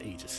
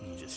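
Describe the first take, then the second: First: The first vowel is a full 'ay' sound. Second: The first vowel has less of an 'ay' sound. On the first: This is the speaker's usual pronunciation. "I usually pronounce it Aegis Shield" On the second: This is how the game's characters say it. "it was something less a. It was like Aegis Shield"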